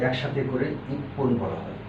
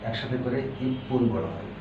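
No difference in how they are said.

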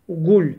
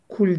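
First: It begins with a deep, thick g-like sound. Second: It begins with a light k sound. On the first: The speaker calls it right. "Gaf harfi kalın harflerdendir" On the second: The speaker calls it wrong. "Kul değil"

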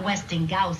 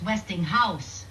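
First: The h in house is dropped, like gouse. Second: The h in house is clearly pronounced. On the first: The speaker calls it wrong. "It's not Westinghouse" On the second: The speaker calls it right. "it's Westinghouse. House"

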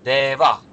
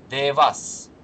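First: The word ends with a breathy h sound. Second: The word ends with a clear s sound. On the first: The speaker calls it right. "Он его произнесет как девах. С придыханием" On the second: The speaker calls it wrong. "мы получаем не дева, а девас"

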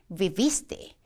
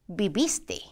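Both takes have the same delivery.

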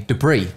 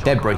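First: The word has an American pronunciation. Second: The word has a British pronunciation. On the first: "If Americans say debris, which is the weirdest way of saying it" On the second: "Apparently I say debris weird, but I don't if you're English"

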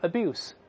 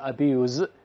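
First: It is pronounced the way the noun is. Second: It is pronounced the way the verb is. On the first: The word names the act of abusing. "名词读成abuse" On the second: The word describes doing the abusing. "动词读成abuse"

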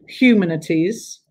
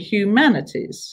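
First: The second syllable has an 'un' vowel. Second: The second syllable has an 'an' vowel. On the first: The speaker calls it wrong. "we don't say humanities" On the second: The speaker calls it right. "we say humanities. So it goes back to having man"

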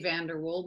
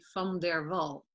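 First: The name is said the English way. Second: The name is said the Dutch way.

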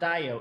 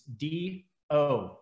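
First: An 'eye' sound is pronounced between D and O. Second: No 'eye' sound is pronounced between D and O. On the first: The speaker calls it wrong. "it's not DIO" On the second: The speaker calls it right. "just drop the I, it's just DO"

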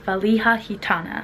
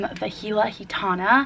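First: The first word sounds like 'valiha'. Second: The first word sounds like 'vahila'. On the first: The speaker calls it right. "The correct pronunciation of the brand is" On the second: The speaker calls it wrong. "I needed to correct myself"

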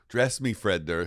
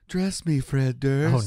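First: It is said in the speaker's normal voice. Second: It is said in a put-on character voice.

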